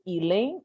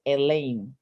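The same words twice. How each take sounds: First: "Elaine" starting with a long ee. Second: "Elaine" starting with a short eh. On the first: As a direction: say "Elaine" as ee-LANE. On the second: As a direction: say "Elaine" as eh-LANE. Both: Shown as a demonstration. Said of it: "don't know whether to say".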